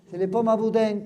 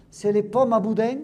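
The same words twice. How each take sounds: The two takes are said the same way.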